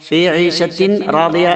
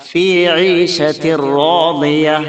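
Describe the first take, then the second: First: The n sound is pronounced before the r. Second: The n sound merges fully into the r. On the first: The speaker calls it wrong. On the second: The speaker calls it right.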